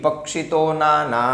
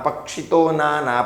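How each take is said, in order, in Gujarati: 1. પક્ષી નો અંતિમ સ્વર હ્રસ્વ છે. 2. પક્ષી નો અંતિમ સ્વર હ્રસ્વ છે.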